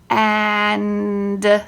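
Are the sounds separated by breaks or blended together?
blended. The sounds are blended with no breaks between them. The speaker calls it right.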